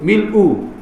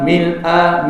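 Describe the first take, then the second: First: The word ends with a 'u' vowel. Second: The word ends with an 'a' vowel. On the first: It is the predicate of an omitted subject. "Kalau kita baca u" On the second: It describes a state or condition. "mil'a dengan hamzah itu bagi depan"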